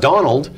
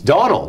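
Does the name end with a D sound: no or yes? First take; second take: yes; no. First: The name ends with a final D sound. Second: The name ends without a final D sound. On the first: The speaker calls it wrong. "not Donald" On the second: The speaker calls it right. "who got no D on the end of his name. It's Donald"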